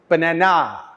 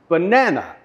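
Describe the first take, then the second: First: The stress is on the last syllable. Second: The stress is on the second syllable. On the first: The speaker calls it wrong. "with the stress on the last syllable" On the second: The speaker calls it right. "it is the second syllable that has the stress"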